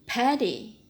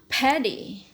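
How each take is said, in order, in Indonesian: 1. Konsonan di tengah adalah hentian yang jelas. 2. Konsonan di tengah adalah hentian yang jelas.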